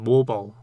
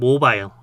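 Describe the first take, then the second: First: It is said with an American pronunciation. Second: It is said with a British pronunciation. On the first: "미국식 발음은" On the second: "영국식 발음은"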